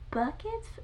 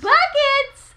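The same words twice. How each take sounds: First: It is said hesitantly, like an unsure question. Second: It is said loudly and excitedly, like an exclamation.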